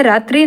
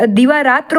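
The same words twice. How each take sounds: First: रात्रि ending in -tri; wrong form. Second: Said in the usual way. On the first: Shown as a demonstration. Teacher rejects a misspelling, रात्रि ending in ee. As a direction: sound the final i of रात्रि. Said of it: "रात्रि नहीं". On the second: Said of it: "दिवारात्र होता है".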